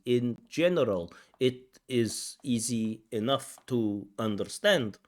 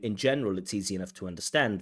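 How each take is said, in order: First: Each word is said separately without linking. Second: The words are linked and run together smoothly. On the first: The speaker calls it wrong. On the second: The speaker calls it right.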